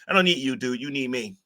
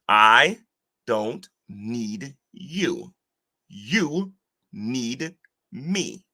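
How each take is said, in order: First: It is said at a normal speed. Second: It is said very slowly.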